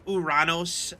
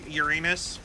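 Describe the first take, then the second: First: The name is said in the Greek-style way. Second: The name is said in the common English way. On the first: This is the officially declared pronunciation. "it's a real pronunciation is Uranos after the uh, Greek version" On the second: This is what everyone actually says. "I think everyone still calls it Urana- Uranus"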